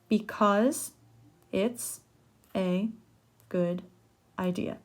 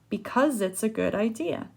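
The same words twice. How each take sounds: First: Each word is said separately without linking. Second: The words run together, linked like one word.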